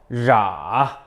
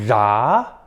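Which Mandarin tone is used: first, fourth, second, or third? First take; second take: third; second. First: It is said with the third tone. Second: It is said with the second tone. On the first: "삼성" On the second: "이성"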